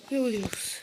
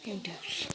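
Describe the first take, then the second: First: Said in the usual way. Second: Breathless unvoiced whisper. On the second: Real, not acted. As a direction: whisper it under your breath. Alone in dark Minecraft map.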